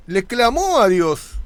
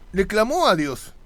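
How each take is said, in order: First: Slow, louder emphasis on "clamó"; emphatic. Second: Said in the usual way. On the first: Acted. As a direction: lean hard on "clamó", drawing it out. Preacher repeats phrase for emphasis. (énfasis lento y fuerte en "clamó")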